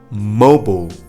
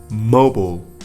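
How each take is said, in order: Both takes have the same delivery.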